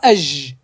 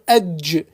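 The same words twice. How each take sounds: First: The final consonant keeps going without a stop. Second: The final consonant stops sharply after a d sound. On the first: The speaker calls it wrong. "Pas edge" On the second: The speaker calls it right. "on va essayer de glisser un petit son D avant. On va dire edge"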